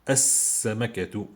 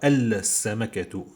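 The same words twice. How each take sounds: First: The L is silent; the next consonant is doubled. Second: The L of the article is clearly pronounced. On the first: The speaker calls it right. "Je prononce pas L. Je dis as-samakatu" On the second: The speaker calls it wrong. "je dis pas السمكة"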